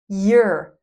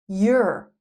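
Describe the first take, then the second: First: The words merge into one short syllable. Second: The words merge into one short syllable.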